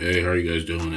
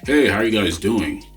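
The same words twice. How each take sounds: First: It is quiet and flat, with no rise. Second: It is louder and lively, rising like a question. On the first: It gets no response. The speaker calls it wrong. "a very monotone" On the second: It invites a reply. The speaker calls it right. "with a little bit more conviction, with a little more of a louder voice ... his voice inflection where he was saying"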